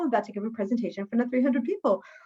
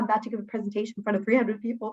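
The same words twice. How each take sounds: First: It is said in an excited, happy way. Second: It is said in a nervous, fearful way.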